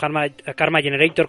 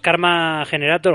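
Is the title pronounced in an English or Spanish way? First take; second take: English; Spanish. First: It is pronounced more the English way. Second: It is pronounced the Spanish way.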